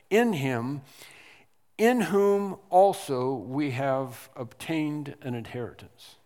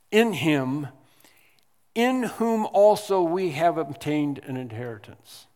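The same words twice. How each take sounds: First: Said in the usual way. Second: "In him, in whom" with "in" said louder and higher, then read on; stress on IN. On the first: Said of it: "is in the original text". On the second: Shown as a demonstration. Preacher rereading the verse, stressing "in". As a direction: lean hard on the opening "in". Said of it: "the emphasis is in, on the word "in".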